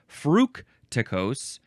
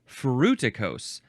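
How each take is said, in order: First: The word is said with an extra sound. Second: The word is said without an extra sound. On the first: The speaker calls it wrong. "I think I added a sound" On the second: The speaker calls it right. "It's fructicose"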